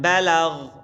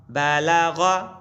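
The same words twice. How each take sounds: First: بلغ said "ba-lagh", closed on gh; pausal ending. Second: بلغ drawn out as "ba-la-gha"; full final vowel. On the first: Quran teacher demonstrating waqf, بلغ ending consonant-final as "balagh". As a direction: drop the final vowel of بلغ and stop on gh. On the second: Quran teacher spelling for pupils, بلغ with final vowel sounded, "balagha". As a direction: chant بلغ slowly, ending on an open a. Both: Shown as a demonstration. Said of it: "وقفن گفتیم بلغ".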